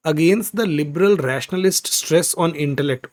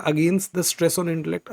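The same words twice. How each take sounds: First: Each word read out slowly. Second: Slow, with the middle cut out; slow simplified reading. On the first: Teacher reads the passage slowly to the class. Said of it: "आगे". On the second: Teacher rereads the simplified line for students. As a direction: read the shortened line slowly. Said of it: "तो इसको आसान कर देते हैं". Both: Shown as a demonstration.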